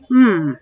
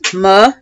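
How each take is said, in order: First: A bare consonant sound with no vowel after it. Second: The consonant is followed by an added vowel. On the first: The speaker calls it right. "M says hmm" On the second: The speaker calls it wrong.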